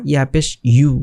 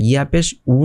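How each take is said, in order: First: "ইউ" as yu, y plus oo; corrected y glide. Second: "উ" as a bare oo, no y; mistaken bare vowel. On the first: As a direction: start "ইউ" with a clear y glide into oo. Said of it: "ইউ হবে". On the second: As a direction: end on "উ", oo without the y glide. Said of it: "এইটা একটু লক্ষ্য রাখবেন". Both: Shown as a demonstration.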